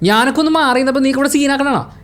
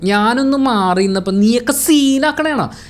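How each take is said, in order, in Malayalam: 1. വാക്യം വേഗത്തിൽ പറഞ്ഞിരിക്കുന്നു. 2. വാക്യം പതുക്കെ പറഞ്ഞിരിക്കുന്നു. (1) "ആ സ്പീഡ് പരിപാടി" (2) "ആ ഒരു സ്ലോ പേസ്"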